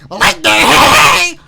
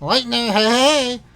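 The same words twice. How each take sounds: First: It is said in a Spamton impression voice. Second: It is not said in a Spamton voice.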